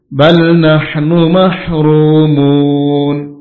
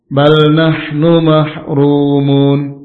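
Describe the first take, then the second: First: The long vowel is held for four or six counts. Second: The long vowel is held for two counts. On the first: "empat atau enam harokat"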